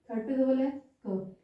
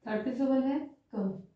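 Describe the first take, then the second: No difference in how they are said.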